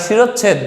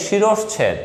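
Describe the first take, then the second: First: শিরচ্ছেদ as shi-roch-chhed, no middle sh; common mispronunciation. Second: শিরশ্ছেদ as shi-rosh-chhed; a clear sh before chh in শিরশ্ছেদ; correct pronunciation. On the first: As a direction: double the ch in শিরচ্ছেদ. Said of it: "আমরা শিরচ্ছেদ বলি". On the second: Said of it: "উচ্চারণটা হচ্ছে". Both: Shown as a demonstration.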